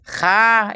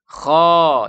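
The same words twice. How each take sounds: First: The letter is said light and thin. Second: The letter is said heavy and thick. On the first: The speaker calls it wrong. "Kha ini tipis" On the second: The speaker calls it right. "Kha itu tebal"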